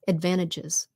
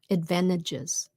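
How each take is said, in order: First: It is said quickly with the T swallowed. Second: The same.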